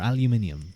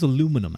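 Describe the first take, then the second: First: The word is said with a British pronunciation. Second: The word is said with an American pronunciation. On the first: The speaker calls it right. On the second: The speaker calls it wrong.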